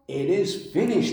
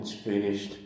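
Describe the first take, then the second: First: It sounds joyful and triumphant. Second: It sounds defeated and resigned.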